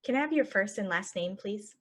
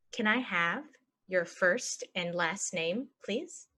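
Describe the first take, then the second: First: Said in the usual way. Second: Slow, broken into chunks; slow chunked. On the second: Shown as a demonstration. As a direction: model it slowly for learners. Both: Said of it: "normal then slow model".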